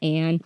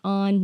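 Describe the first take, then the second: First: The name is said with a flat 'a' vowel. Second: The name is said with an open 'ah' vowel. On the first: The speaker calls it wrong. "not Ann" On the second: The speaker calls it right. "it's on"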